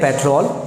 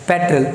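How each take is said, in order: First: The second syllable is a full 'trawl' sound. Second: The second syllable is not a 'trawl' sound. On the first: The speaker calls it wrong. "जो ट्रॉल बोल रहे हैं आप वो गलत है" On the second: The speaker calls it right. "The correct pronunciation"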